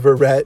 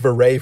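First: The name is pronounced in an English-sounding way. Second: The name is pronounced in a French-sounding way. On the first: The speaker calls it right. "It's Jason Verrett" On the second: The speaker calls it wrong. "I keep saying Verrett for some reason. He's not French"

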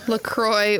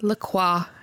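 First: The brand name is said in the standard way. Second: The brand name is said in the Los Angeles way. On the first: The speaker calls it right. "it's LaCroix" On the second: The speaker calls it wrong. "as they said"

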